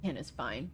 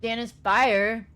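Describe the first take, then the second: First: "Dan is fine" said softly and low, with a clear "fine"; quietly corrected to "fine" with a rising end; corrected name. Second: "Dan is fire" said slowly and loudly, with a long drawn-out "fire"; "fire" slow and stressed, in place of "fine"; misheard name. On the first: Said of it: "I called you that last time". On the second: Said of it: "I have fire on the brain". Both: Real, not acted.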